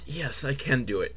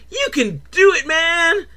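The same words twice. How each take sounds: First: Low, soft self-assurance; timid hero's reply. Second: High-pitched cartoon encouragement; talking balloon cheering. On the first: Acted. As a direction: answer softly and low, convincing yourself. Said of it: "He's like". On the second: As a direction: squeal encouragement as a little balloon. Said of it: "the balloon starts talking to him".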